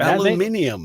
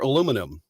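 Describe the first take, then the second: First: It is said with a British accent. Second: It is said with an American accent. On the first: "aluminium make" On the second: "for aluminum"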